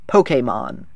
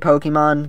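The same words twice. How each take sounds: First: The E sounds like the E in resume. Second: The E does not sound like resume's E. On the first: This is the official pronunciation. "That's actually how you're supposed to pronounce it. This is supposed to be an E like in resume" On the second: This is the speaker's habitual pronunciation. "I'll still say Pokemon because that's what I do"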